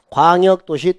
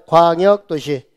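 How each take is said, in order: First: Said in the usual way. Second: "광역도시" said slowly with a drawn-out first syllable; slow teacher's model of "광역도시", falling at the end; repeat-after-me. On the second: Shown as a demonstration. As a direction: stretch "광역도시" for students to copy. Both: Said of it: "따라서 해봐요".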